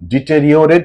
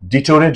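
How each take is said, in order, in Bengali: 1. মাঝের 'ri-o' অংশটি পুরোপুরি উচ্চারণ করা হয়। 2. মাঝের 'ri-o' অংশটি বাদ দেওয়া হয়। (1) "অ্যাকচুয়ালি ডিটেরিওরেট" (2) "এই শব্দটা অনেকে ভুল উচ্চারণ করে ... ডিটোরেট বলে"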